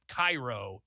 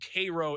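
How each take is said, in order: First: It is said the usual Egyptian way. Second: It is said the local Illinois way. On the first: The place meant is the city in Egypt. "not Cairo, Egypt" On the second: The place meant is the town in Illinois. "You're in Cairo, Illinois"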